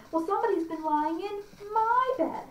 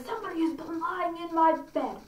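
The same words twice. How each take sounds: First: High-pitched indignant bear; middle-sized bear. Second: Lightly voiced bear, pitched up; a touch of indignation as the huge bear. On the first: Acted. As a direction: protest in a raised storybook bear voice. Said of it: "sized bear says". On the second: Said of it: "our big, great, huge bear".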